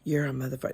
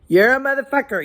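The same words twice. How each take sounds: First: It is said quietly. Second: It is said loudly.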